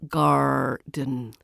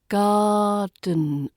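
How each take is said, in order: First: The word is said with an r sound. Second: The word is said without any r sound. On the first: The speaker calls it wrong. "not garden. It's not a pirate word" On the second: The speaker calls it right. "There's no r sounds in garden"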